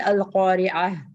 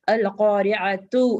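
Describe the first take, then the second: First: The word ends with a soft h sound. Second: The word ends with a t sound plus -u. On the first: The reader stops on this word. "when we have to stop, we'll say al-qari'ah" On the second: The word is read without stopping. "it is written with ta"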